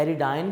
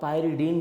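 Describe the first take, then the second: First: The last syllable sounds like 'dine'. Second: The last syllable sounds like 'deen'. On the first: "पायरिडाइन भी पढ़ा जाता है" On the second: "पायरिडीन भी पढ़ा जाता है"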